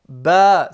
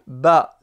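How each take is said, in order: First: The vowel is drawn out long. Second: The vowel is said short. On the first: "c'est long" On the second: "c'est court"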